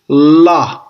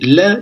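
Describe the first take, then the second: First: The l sounds heavy, full and deep. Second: The l sounds light, thin and sharp. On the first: "un son grave" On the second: "un son aigu"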